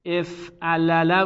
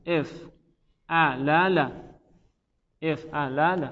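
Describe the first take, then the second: First: Said in the usual way. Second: افعلل stretched out very slowly, every syllable separate; افعلل drawn out, syllable by syllable; slow spelled-out demo. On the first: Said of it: "اصل این افعل". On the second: Shown as a demonstration. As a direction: drag out each syllable of افعلل for the class. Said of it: "افعلل بوده".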